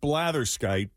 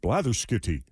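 First: The word ends on a plain 'skite' sound. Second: The word ends with an added 'ee' syllable. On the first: "So I went with blatherskite" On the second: "who knows if, like, the pronunciation is supposed to be blatherskitty"

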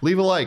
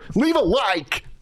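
First: It sounds calm and matter-of-fact. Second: It sounds extremely desperate and frantic.

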